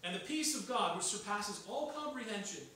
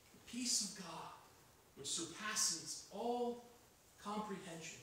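First: Said in the usual way. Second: The peace of God, drawn out with a slow stretch on "all"; slow emphasis. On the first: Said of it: "verse read first, then repeated". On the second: Shown as a demonstration. Preacher repeats the verse, lingering on each word. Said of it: "repeats the verse slowly".

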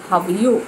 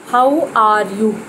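First: "How are you" run together as "ha ju"; light and quick, "are" nearly gone; right way. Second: "How are you" slow and heavy, each word separate; wrong way. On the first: Teacher modelling the natural form. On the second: Teacher demonstrating the overcareful wrong way. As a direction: lean on every word, slowly. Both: Shown as a demonstration.

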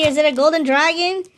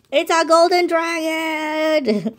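First: "golden dragon" pitched high as a rising question; suspenseful question. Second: High, slow, stretched-out proclamation; excited announcement. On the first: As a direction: build anticipation up to "dragon". Teasing question before the reveal. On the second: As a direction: hold "golden dragon" high and long like a big reveal. Answers own question with the reveal. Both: Real, not acted.

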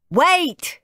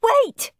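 First: High, loud call of wait; shouting. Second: Shouting. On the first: Dad tries to stop the boys, shouting. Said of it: "shouted Dad". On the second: Mum tries to stop Henry, high shout. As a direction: call out sharply to stop him. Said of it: "shouted Mum". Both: A narrator's reading.

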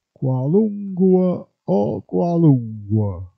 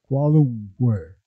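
First: "Qualunque" said as kwalungwa, with a gw sound and a final a; "Qualunque o qualunque" in dialect, ending -gua; dialect pronunciation. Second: Said in the usual way. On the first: Shown as a demonstration. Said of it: "quando la U non è bene scandita". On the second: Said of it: "si può trasformare in W".

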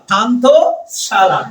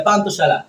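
First: "পান্থশালা" slowly, as পান্থ, pause, শালা; split into parts. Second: Said in the usual way. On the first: Shown as a demonstration. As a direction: break "পান্থশালা" into two drawn-out parts. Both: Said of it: "পান্থ লাগাই দিবা".

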